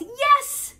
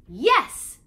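First: High, much louder joyful shout of yes; joyous yell. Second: Yes shouted much louder, little higher; joyful yell. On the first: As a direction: burst out with joy. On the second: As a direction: shout it out happily. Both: Acted. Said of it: "yells, joyously".

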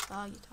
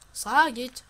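First: Said in the usual way. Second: Loud order. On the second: Acted.

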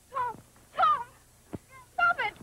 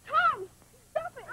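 First: A sister shouting as the fight goes on. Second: Pleading high over the scuffle; a frightened sister trying to stop the fight; high pleading cry. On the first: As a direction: yell it to stop the fight. Sister cries out louder. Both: Acted.

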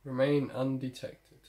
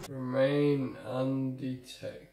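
First: Slow, deliberate on-screen objective read. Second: REMAIN UNDETECTED stretched out very slowly; very drawn-out read. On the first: Reads game objective aloud. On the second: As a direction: drag every word of the objective right out. Repeats objective after failing, drawn out. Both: Real, not acted.

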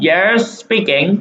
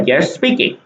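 First: Slow answer read. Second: Said in the usual way. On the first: Shown as a demonstration. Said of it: "ตอบนี่เลยครับ".

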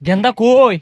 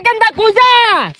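First: Said in the usual way. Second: High, long-drawn call. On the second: Acted. Uncle hails Genda heading to college, calling out. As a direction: holler after someone, stretching the last word. Calls out after departing Genda.

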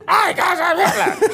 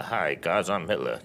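First: Very high, loud squeal; comically shrieked range demo; high end of range. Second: Low, soft, understated delivery; low end of range. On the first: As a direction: shout it far up in pitch. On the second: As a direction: say it small and deep, deadpan demo. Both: Shown as a demonstration. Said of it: "this is my range as an actor".

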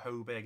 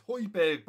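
First: Højbjerg as "HOE-berg"; long "oh" in the first syllable of Højbjerg; mistaken pronunciation. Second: Højbjerg as "HOY-berg", hit firmly; emphatic "HOY-berg" for Højbjerg; corrected pronunciation. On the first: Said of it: "keep calling him". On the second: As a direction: stress the "oy" in Højbjerg. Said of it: "Get it into your head". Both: Real, not acted.

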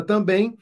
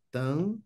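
First: Said in the usual way. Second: "Também" with a long pause between syllables; separando as sílabas. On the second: Shown as a demonstration. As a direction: softly split "Também" into two syllables. Separa sílabas para achar a tônica. ("Também" silabado, com pausa longa)

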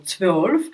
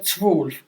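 First: "zwölf" with a clear rounded ö; northern German. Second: "zwölf" with an unrounded, u-like vowel; southern German. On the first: Teacher imitating north Germans saying twelve. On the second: Teacher imitating south Germans saying twelve. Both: Retold or imitated. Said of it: "вони кажуть".

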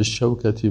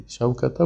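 First: شوکتی ending in -i for the kasra after با; correct ending. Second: شوکته ending in a plain -e, marked as wrong. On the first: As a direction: say شوکتی with a clear final -i. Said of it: "باید به شوکتی بگوییم". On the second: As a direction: say شوکته with a final -e sound, the wrong form. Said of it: "شوکته و شوکته غلط است". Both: Shown as a demonstration.

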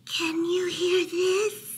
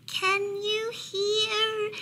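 First: High, slow, muffled mouse voice; mouse mumbling into pillow. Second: Very high, slow, drawn-out little voice; tiny whispering mouse. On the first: Mouse testing Bear's ears from a pillow, high muffled mumble. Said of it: "Mouse mumbled into the pillow". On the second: Mouse testing Bear from under blankets, tiny high voice. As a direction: stretch it out thin and high, as if whispering. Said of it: "and whispered". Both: A narrator's reading.

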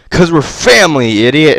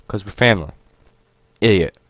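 First: Louder playful catchphrase shout; loud sign-off. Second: Said in the usual way. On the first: Real, not acted. Vlogger belts his outro line to viewers, louder. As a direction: belt the sign-off line cheerfully.

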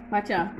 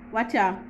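No difference in how they are said.

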